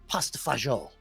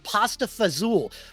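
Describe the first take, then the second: First: It is said the Italian way, "fagioli". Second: It is said the New York way, "fazool".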